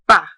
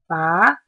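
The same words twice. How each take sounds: First: The pitch falls from high to low. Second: The pitch rises from middle to high. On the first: "starts at the top and then goes down" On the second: "starts in the middle and rises to the top"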